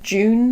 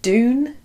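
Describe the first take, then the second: First: It begins with a j sound, like the month. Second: It begins with a plain d sound. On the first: "June sounds like June, the month of June" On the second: "I don't know how to say it"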